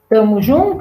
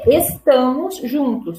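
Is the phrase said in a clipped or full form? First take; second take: clipped; full. First: The phrase is clipped, with syllables dropped. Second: The phrase is said in full, every syllable.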